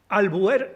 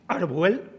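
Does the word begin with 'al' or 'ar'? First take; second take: al; ar. First: It has an L first and an R last. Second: It has an R first and an L last. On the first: The speaker calls it right. "Albuer sí" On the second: The speaker calls it wrong. "Arbuel no"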